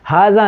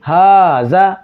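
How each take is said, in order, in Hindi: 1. पहला स्वर छोटा और झटके से बोला गया है। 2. पहला स्वर खींचकर लंबा बोला गया है। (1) "हाजा नहीं" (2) "अलिफ की आवाज़ अदा होगी"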